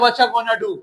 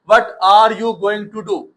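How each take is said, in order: First: The words are contracted and run together. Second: Every word is pronounced fully and separately. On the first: This is how native speakers say it. "गोरा कहता है" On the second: This is how it is written. "हम लिखते हैं व्हाट आर यू गोइंग"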